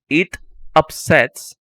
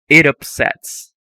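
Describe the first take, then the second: First: The two words are said separately with a break. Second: The final t runs straight into the next vowel. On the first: The speaker calls it wrong. "instead of saying" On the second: The speaker calls it right. "So it's linked"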